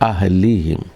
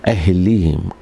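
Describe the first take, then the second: No difference in how they are said.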